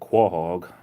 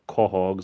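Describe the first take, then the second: First: The word does not begin with plain K. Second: The word begins with a plain K sound.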